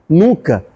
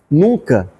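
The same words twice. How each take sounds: The two takes are said the same way.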